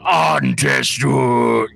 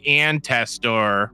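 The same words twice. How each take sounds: First: It is said with a non-American, native-sounding inflection. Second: It is said with a Midwestern American accent.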